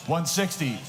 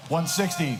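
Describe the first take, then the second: No difference in how they are said.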